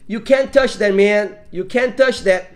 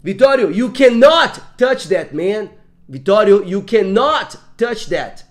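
First: Said in the usual way. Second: Firm parental ban, CANNOT slow and punched loud; slow, weighty warning with "cannot" drawn out; heavy stress on CANNOT. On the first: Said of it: "Ela ficou mais forte?". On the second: Shown as a demonstration. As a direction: lean hard on both syllables of "cannot". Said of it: "teve uma diferença no peso da fala".

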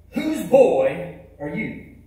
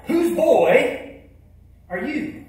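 First: Slow, weighty preacher's question; booming preacher voice. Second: Louder and higher, pressing the question; even louder. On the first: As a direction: call him out slowly, like a pulpit preacher. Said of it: "with that big booming preacher voice". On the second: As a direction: boom it out louder across the church. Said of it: "he said it even, and even louder". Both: Retold or imitated.

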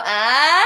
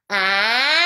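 First: Swallowed, pushed back vowel; the wrong way, sound falls back. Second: Bright, forward in the face; forward placement. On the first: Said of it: "we don't want that". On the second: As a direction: float the sound up your face. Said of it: "that's fantastic". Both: Shown as a demonstration.

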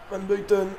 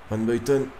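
First: Nom lancé nettement plus aigu; voix qui grimpe avec l'action; appel excité. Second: Said in the usual way. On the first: Real, not acted. Second appel, l'action chauffe. (appel plein d'espoir, aigu)

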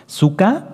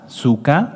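First: Sukkah said high with rising end; spoken for notes. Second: Said in the usual way. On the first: Shown as a demonstration. A teacher to students taking notes, high rising Sukkah. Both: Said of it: "ustedes lo pueden anotar".

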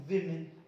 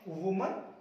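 First: विमेन as "WIM-in", low; contrasted plural. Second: वुमन as "WU-mun", rising; contrasted singular. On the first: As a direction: say विमेन with i in both syllables. (विमेन, "वि" से, नीचे सुर में) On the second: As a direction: say वुमन with u, lifted at end. (वुमन, "वु" से, उठता हुआ) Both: Shown as a demonstration. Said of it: "कितना अंतर आ गया दोनों के उच्चारण में".

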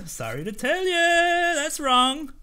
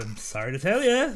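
First: High, slow teasing sorry to tell ya; mock sing-song. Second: Said in the usual way. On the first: Guard taunting the traveller while refusing, sing-song. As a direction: stretch it up in a mocking lilt.

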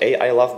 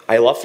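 First: "a I love" with an extra vowel before "I"; wrong pronunciation. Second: ILove said just like "I love"; correct pronunciation. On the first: Speaker showing how not to say the company name, "a I love". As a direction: put a separate "a" sound ahead of "I love". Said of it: "not a I love". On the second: Speaker showing the audience how his company's name is said, correct "I love". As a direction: say "I love" as the two English words. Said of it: "iLove is pronounced just like I love". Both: Shown as a demonstration.

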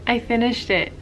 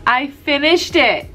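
First: Said in the usual way. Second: Slow, higher, emphatic announcement of success; weary triumph. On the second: Real, not acted. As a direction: draw out FINISHED, relieved and proud. Repeats it in relieved triumph.

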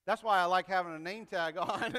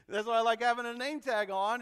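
First: Said in the usual way. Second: Amused repeat of own joke; laughing. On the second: Real, not acted. Preacher laughs at his own name-tag line to the congregation, laughing. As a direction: repeat it through a laugh, a bit louder.

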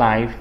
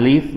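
First: "life" said with an eye vowel, like "lie" plus f; "life" with the long i diphthong. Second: "live" said with a short i, as in "give"; "live" with a short ih vowel. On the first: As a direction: read "life" to rhyme with knife. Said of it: "อ่านว่า life อย่าไปอ่าน live นะ". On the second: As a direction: read "live" to rhyme with give, not five. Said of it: "อย่าไปอ่าน live นะ". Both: Shown as a demonstration.

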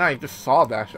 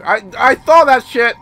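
First: Said in the usual way. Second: Higher, louder repeat; loud insistence. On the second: Real, not acted. Player reacting to what he saw, loud insistence. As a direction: insist on it, raised voice.

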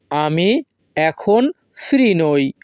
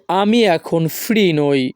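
First: Slow, pauses after "আমি" and "এখন"; word by word. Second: Said in the usual way. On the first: Shown as a demonstration. Teacher repeating the sentence for learners, word by word. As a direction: split "আমি", "এখন", then "free নই".

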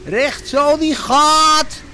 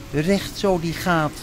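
First: High, loud, drawn-out call; skipper's shout. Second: Said in the usual way. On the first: A narrator's reading. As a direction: bellow it slowly like a skipper at the helm. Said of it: "riep hij". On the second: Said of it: "want dat roepen schippers altijd".

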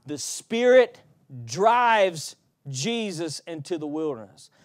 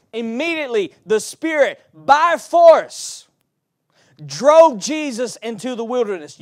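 First: Said in the usual way. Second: Spirit and by force rising to a loud, high peak, each phrase set apart; stress on by force. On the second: Shown as a demonstration. Preacher rereads the verse to the church, building to a shout on by force. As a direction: hammer "by force" hardest, then ride the rest loud. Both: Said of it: "So you can read it like this".

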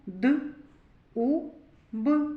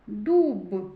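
First: "Д, У, Б" as three separate sounds; sounded out. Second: "дуб" as one joined word, louder; blended together. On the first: Teacher building a word with children, "Д, У, Б" sound by sound. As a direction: spell out "Д, У, Б" sound by sound, pausing between. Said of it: "Давайте скажемо". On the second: Teacher joining the sounds for children, "дуб" said loudly as one word. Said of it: "та разом". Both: Shown as a demonstration.

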